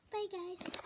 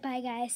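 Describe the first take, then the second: First: Light, higher pretend dog voice saying bye guys; a lightly voiced dog saying bye guys; voicing the dog. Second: Said in the usual way. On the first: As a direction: lend the dog a small cute voice for bye guys. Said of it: "You heard what she said". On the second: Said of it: "She said".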